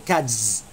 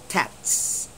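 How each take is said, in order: First: The word ends with a buzzing z sound. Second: The word ends with a hissing s sound. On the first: The speaker calls it wrong. "You do not say cats" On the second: The speaker calls it right. "the S remains as S"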